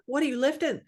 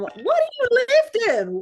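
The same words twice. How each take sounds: First: It has little of Joe Dial's Southern accent. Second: It has a strong Joe Dial Southern accent.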